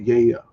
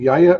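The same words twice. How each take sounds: First: The vowel is pronounced as an I sound. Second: The vowel is pronounced as an A sound. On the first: "or more the I sound?" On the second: "Is it the A sound"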